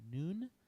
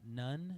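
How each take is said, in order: First: The vowel is long, as in 'noon'. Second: The vowel is short, as in 'none'. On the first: The speaker calls it right. "It's pronounced noon" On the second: The speaker calls it wrong. "It's not none"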